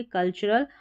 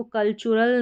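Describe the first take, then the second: First: कल्चरल with a short middle schwa, "kul-chuh-rul"; "chuh" pronunciation. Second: कल्चरल with a full "choo", "kul-choo-rul"; mispronunciation with "choo". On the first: Teacher giving the correct reading, कल्चरल as "kul-chuh-rul". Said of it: "टी यू को च पढ़ा जा रहा है". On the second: Teacher warning against a wrong reading, कल्चरल as "kul-choo-rul". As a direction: put a long "oo" in the middle of कल्चरल. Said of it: "इसको कल्चरल नहीं पढ़ेंगे". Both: Shown as a demonstration.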